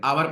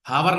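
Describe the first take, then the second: First: आवर said with no h, opening on the vowel; आवर begins straight on the vowel; silent h. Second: हावर with a breathy h at the start; हावर said as if the h were sounded; wrong h sound. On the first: Teacher shows students the right way to say आवर. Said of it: "आवर पढ़ते हैं". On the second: Teacher shows students the wrong way to say हावर. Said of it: "हावर नहीं पढ़ते". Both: Shown as a demonstration.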